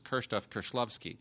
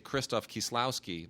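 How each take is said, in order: First: The name is said with native Polish pronunciation. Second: The name is said with anglicized English pronunciation. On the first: Listeners will not recognize the name. "because they won't know who that is" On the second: Listeners will recognize the name. "they understand that"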